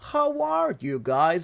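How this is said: It is said slowly, in a mysterious way. "tenía que hablar así como medio misterioso, como lento"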